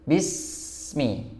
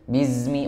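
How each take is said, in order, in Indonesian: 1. Konsonan di tengah terdengar seperti s yang mendesis. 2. Konsonan di tengah terdengar seperti z yang bergetar.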